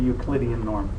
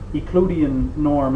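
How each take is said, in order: First: It is said in the usual standard pronunciation. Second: It is said in the former instructor's pronunciation. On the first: It is the common way to say it. "instead of the Euclidean norm" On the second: It echoes how a former instructor said it. "we talked about the uh, Euclidean norm"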